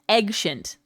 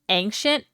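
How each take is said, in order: First: The word begins with an 'eg' sound. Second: The word begins with an 'ay' sound. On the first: "I feel like you are saying eggshint" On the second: "I swear I'm saying it is normal"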